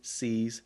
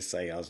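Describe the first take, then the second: First: The name is said with one syllable. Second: The name is said with two syllables. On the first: This is another possible way to say it. "It could be C's" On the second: This is how it is said locally in Texas. "we say Sayers down here in Texas"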